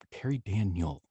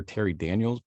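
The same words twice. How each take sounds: First: "Daniel" said with no final s; "Terry Daniel" ending cleanly on the l; corrected name. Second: "Daniels" said with a final s; "Terry Daniels" with the s tacked on the end; wrong name. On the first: Correcting his coach's name, "Daniel" without the s. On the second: Correcting his coach's name, "Daniels" with a wrong s. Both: Shown as a demonstration. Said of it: "It's always Terry Daniel".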